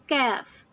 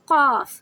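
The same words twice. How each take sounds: First: Light, thin k in "کاف"; soft Kaf. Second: Loud thick "قاف" from the back of the tongue; heavy Qaf. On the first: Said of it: "کاف کو ہم نرمی سے پڑھتے ہیں". ("کاف" نرمی سے، باریک) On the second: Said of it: "یہ ہیوی لیٹر ہے". ("قاف" بھاری، موٹی آواز میں) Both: Shown as a demonstration.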